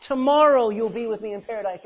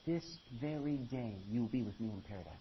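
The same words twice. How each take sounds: First: "Tomorrow" hit loud and high as the wrong reading; preacher booms the misreading "Tomorrow you'll be". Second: "This very day" said low and soft; correct reading, hushed. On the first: Preacher shows congregation the wrong reading, loud. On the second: Preacher gives congregation the true reading, quietly. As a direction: lower the voice, reverent and hushed. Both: Shown as a demonstration. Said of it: "Not tomorrow".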